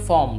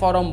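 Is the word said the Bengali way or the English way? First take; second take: English; Bengali. First: It is said with an English pronunciation. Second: It is said with a Bengali pronunciation. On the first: "ইংলিশে আমরা বলবো যে ফর্ম" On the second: "বাংলায় ফরম বলবো"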